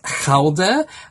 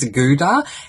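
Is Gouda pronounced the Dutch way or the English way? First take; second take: Dutch; English. First: Gouda is said with a Dutch pronunciation. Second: Gouda is said with an English pronunciation. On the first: "In uh, Holland, it's actually pronounced as Gouda" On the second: "the pronunciation that we have in English-speaking countries that we call the cheese Gouda"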